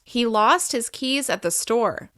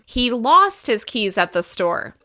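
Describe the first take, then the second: First: No single word gets extra emphasis. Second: The word lost gets extra pitch emphasis. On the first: "In a normal neutral sentence" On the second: "We can also emphasize the verb"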